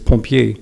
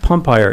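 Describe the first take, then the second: First: It is pronounced with French sounds. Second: It is pronounced with English sounds. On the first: "the word for firefighter in French, which is pompier" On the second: "he would call that pumpire"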